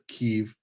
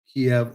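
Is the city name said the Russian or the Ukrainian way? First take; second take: Ukrainian; Russian. First: The city name is said the Ukrainian way. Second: The city name is said the Russian way. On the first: "that's how you Ukrainians pronounce it" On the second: "Kiev is Russian"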